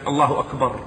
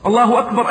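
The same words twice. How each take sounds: First: Said in the usual way. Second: Louder exclaim. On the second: Shown as a demonstration. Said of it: "repeated louder".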